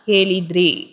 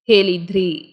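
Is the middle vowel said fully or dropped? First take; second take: dropped; dropped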